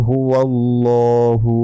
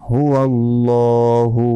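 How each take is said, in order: Both takes have the same delivery.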